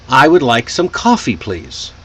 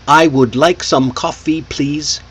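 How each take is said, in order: First: Key words are stretched and small words shortened. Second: Every word gets the same even emphasis. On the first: The speaker calls it right. "See how I put emphasis on would" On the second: The speaker calls it wrong. "with equal emphasis on every word"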